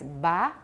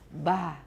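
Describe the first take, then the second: First: The b is plain voiced without breathiness. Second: The b is released with a breathy voice. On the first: "voice stops" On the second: "voiced breathy stops"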